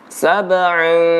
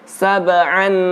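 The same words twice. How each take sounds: First: The final n is faint and nasalized. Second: The final n is pronounced clearly. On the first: The speaker calls it right. "tapi dia samar-samar ya" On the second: The speaker calls it wrong. "jangan sab'an sab'an ya seperti n"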